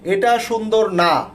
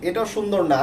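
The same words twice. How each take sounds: First: It is said at a louder, stronger volume. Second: It is said at a normal, softer volume.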